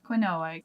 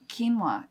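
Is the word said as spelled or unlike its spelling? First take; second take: as spelled; unlike spelling. First: It is pronounced the way it is spelled. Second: It is pronounced unlike the way it is spelled. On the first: The speaker is unfamiliar with the word. The speaker calls it wrong. "That's what we would say if we weren't familiar with this term" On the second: The speaker knows the word. The speaker calls it right. "is what you're supposed to say"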